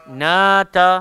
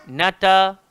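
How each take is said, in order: No difference in how they are said.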